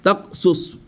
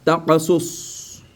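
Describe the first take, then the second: First: "Taqsus" with stopped k, tak-sus; no bounce in "Taqsus", higher pitched; without qalqala. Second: "Taqasus" slow, with an echoed q; qalqala. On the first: Teacher shows it sans qalqala, stopped k. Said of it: "Mais sans qalqala". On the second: Teacher applies the required rule, qalqala. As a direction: bounce ta-qa in "Taqasus", drawing it out. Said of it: "il faut appliquer la règle". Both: Shown as a demonstration.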